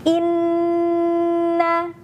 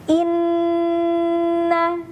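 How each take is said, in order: No difference in how they are said.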